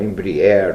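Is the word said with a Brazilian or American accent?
American. It is said with an American English pronunciation.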